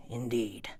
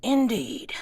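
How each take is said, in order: First: Said in the usual way. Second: Character voice. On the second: Acted. GM voices MacCready, then repeats plainly.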